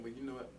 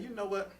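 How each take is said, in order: First: Low, soft, conciliatory voice; acting out a softer response; calm, understanding reply. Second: Mock-annoyed retort, mildly done; a touch of retold irritation; acting out mad. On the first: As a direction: gently offer an olive branch. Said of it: "Instead of saying". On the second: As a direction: imitate someone getting mad. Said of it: "they get mad and be like".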